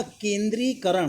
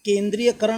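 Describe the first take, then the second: First: केंद्रीकरण without "ya"; correct word form. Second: केंद्रीयकरण with an extra "ya"; wrong word form. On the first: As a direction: say केंद्रीकरण as ken-dree-ka-ran. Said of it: "केंद्रीय का इस्तेमाल गलत". (सही रूप, केंद्रीकरण बिना "य" के) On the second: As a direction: say केंद्रीयकरण as ken-dree-ya-ka-ran. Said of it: "केंद्रीयकरण नहीं होगा". (गलत रूप, केंद्रीयकरण में "य" के साथ) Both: Shown as a demonstration.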